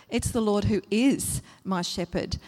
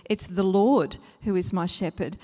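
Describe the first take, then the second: First: "is" lifted and held before a small break; stress on IS. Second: "Lord" stretched and punched; stress on LORD. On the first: Moving the emphasis to the next word, stress on "is". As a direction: lean on "is", not on "Lord". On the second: Showing who the shepherd is, stress on "Lord". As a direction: lean hard on "Lord", then ease off. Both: Shown as a demonstration. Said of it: "put the emphasis on a different word each time".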